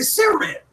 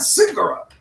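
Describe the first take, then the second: First: The word is said without an 'igga' sound. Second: The word is said with an 'igga' sound. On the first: This is how the speaker always says it. "I don't I don't ever put the igga in there" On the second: Someone else said it this way. "not cigarette"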